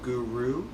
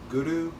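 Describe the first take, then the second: First: The R is plain, not rolled. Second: The R is tapped and rolled. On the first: The speaker calls it wrong. "Instead of guru, guru, which most people pronounce it that way" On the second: The speaker calls it right. "rolling the R a bit. So it sounds like this"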